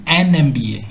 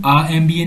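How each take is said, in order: First: "एन M B A" with an n linking into em; article AN before MBA. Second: "आ M B A" with a bare open aa before em; wrong article A. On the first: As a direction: say "एन" before "M B A", starting on the vowel sound. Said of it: "हम कहते हैं". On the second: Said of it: "हम कभी भी आ M B ए नहीं कहते". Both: Shown as a demonstration.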